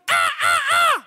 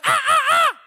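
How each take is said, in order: First: High, piercing bird squawks; imitated bird screech. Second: Loud, very high bird squawks; louder bird screech. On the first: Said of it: "de skriker skikkelig, sånn". (etterlignet, skingrende fugleskrik) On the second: Acted. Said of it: "Ja, enda høyere". (enda høyere, skingrende fugleskrik)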